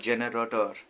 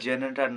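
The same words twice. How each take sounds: First: The word is said in full, as 'generator'. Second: The word is said clipped, like 'genetar'. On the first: The speaker calls it right. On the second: The speaker calls it wrong. "ওটা জেনারেটর না"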